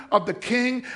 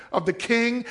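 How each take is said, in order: Both takes have the same delivery.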